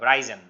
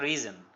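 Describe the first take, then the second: First: The first vowel is an 'eye' sound. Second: The first vowel is a short 'i' sound. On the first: The speaker calls it wrong. "Not রাইজেন" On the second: The speaker calls it right. "উচ্চারণটা রিজন"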